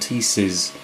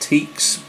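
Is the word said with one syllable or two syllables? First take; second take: two syllables; one syllable. First: The word is said as two syllables. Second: The word is said as one syllable. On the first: This is how most people say it. "certainly everyone in America, pronounces them Teeces" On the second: This is how the speaker used to say it. "I always thought they were pronounced teaks"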